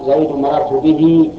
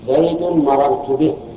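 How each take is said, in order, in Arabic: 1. تُمدّ الحركة الأخيرة فتصير حرفا طويلا. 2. تُحذف الحركة الأخيرة عند الوقف. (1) "ولا تجره يعني تجيب الصلة" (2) "إذا كان مضموما أو مقصورا تحذف صلته"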